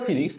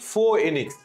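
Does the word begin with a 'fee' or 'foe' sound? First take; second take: fee; foe. First: The word begins with a 'fee' sound. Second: The word begins with a 'foe' sound. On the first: The speaker calls it wrong. "আজকে থেকে আমরা আর ফিনিক্স উচ্চারণ করব না" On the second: The speaker calls it right. "Rather than আমরা বলবো হচ্ছে ফোএনিক্স"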